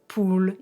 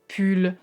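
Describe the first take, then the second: First: The vowel is a long, French-like oo sound. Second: The vowel is a short English oo sound. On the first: The speaker calls it wrong. "I don't know when I'm gonna stop saying poule instead of pull" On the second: The speaker calls it right. "instead of pull"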